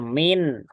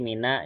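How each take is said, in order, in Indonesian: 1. Kata itu berakhir dengan konsonan saja. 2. Kata itu berakhir dengan tambahan vokal a. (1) "Kalau min itu" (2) "pasti mina gitu kan"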